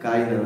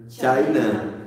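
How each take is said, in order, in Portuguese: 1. A palavra começa com um som de k forte. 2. A palavra começa com um som de ch. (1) "Cainã seria no português" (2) "Como é a pronúncia ali"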